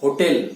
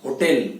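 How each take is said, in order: First: hotel with tel punched; stress on tel. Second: hotel with the weight on tel; stress on tel. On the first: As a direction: land hard on the tel of hotel. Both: Shown as a demonstration. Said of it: "इसके ऊपर जोर देना है". (Hotel, टेल पर जोर)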